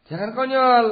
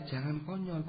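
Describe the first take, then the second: First: Higher and louder warning; emphatic warning. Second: Softer, falling warning; quiet warning. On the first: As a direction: call it out sharply. (peringatan keras dan tinggi) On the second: (peringatan pelan dan lirih) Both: Real, not acted.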